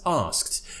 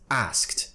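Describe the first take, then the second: First: The vowel is a long 'ah' sound. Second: The vowel is a short flat 'a' sound. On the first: "you're not pronouncing asked as asked" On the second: "pronouncing the R sound at the beginning as an A"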